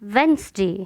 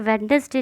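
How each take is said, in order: First: It is said in two syllables, with d silent. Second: It is said in three syllables, sounding the d. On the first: The speaker calls it right. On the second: The speaker calls it wrong. "कई लोग इसे वेडनेसडे बोलते हैं, वेडनेसडे नहीं"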